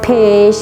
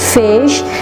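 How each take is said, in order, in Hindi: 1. इसके बजाय इसकी शुरुआत फूंक वाली p की आवाज़ से होती है। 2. इसकी शुरुआत f की आवाज़ से होती है, होंठ दांतों पर। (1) "वो उसको फा में कन्वर्ट कर देता है" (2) "ये प्रॉपर प्रोनाउंसिएशन है फर्स्ट साउंड की"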